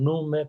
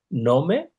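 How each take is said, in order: First: The stressed vowel is pronounced as a 'u'. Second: The stressed vowel is pronounced as an 'o'.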